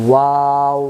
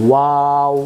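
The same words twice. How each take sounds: Both takes have the same delivery.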